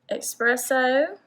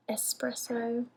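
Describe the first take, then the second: First: Espresso said "ex-PRESS-oh"; pronounced with an X. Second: Espresso said "es-PRESS-oh", softly; no k sound before the s in Espresso; correct pronunciation. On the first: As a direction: put a k sound before the s in Espresso. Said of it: "there's no X in there". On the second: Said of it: "It's supposed to be Espresso". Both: Shown as a demonstration.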